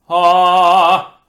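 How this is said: The vowel sounds dull, heavy and damped. The speaker calls it wrong. "you can hear how the tone quality is duller"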